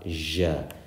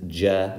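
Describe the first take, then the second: First: It begins with a soft 'zh' sound. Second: It begins with a hard 'j' sound. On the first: The speaker calls it wrong. "not ja" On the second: The speaker calls it right. "This is ja"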